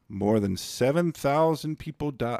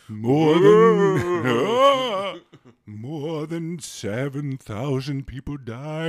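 First: It is read in a normal speaking voice. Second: It is read in a put-on spooky voice. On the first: The speaker calls it wrong. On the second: The speaker calls it right.

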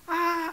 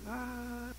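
First: It is said as a loud shout. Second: It is said very quietly.

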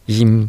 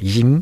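First: The tone stays level through the word. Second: The tone rises through the word. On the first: It means a fitness gym. "こういうふうに平らな成長になります" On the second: It means a smile. "上がる成長ですね。"

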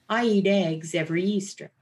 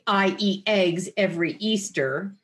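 First: The vowels start with a soft, easy onset. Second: The vowels start with a hard glottal attack. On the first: The speaker calls it right. "Another easy onset" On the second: The speaker calls it wrong. "So you don't say"

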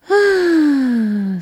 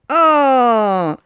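First: It is breathy, with air escaping. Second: It is clear, with no escaping air.

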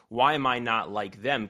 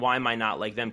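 First: It is asked in a helpful, curious tone. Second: It is asked in a devastating, harsh tone.

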